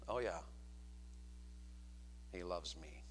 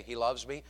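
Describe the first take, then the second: First: Very low, soft deadpan with a long pause; mock-unenthusiastic murmur; doubtful wife's reply. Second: Said in the usual way. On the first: Shown as a demonstration. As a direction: drop it low and quiet, unconvinced. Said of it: "would she say it like this". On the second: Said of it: "Would your wife say".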